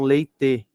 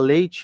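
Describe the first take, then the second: First: The final vowel is said strong and forced. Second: The final syllable sounds soft, like 'chi'. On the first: This is how Italians say it. "eles falam leite ... eles fazem forte o final" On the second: This is the usual local way. "ao invés de ser ti, ao invés de falar leite"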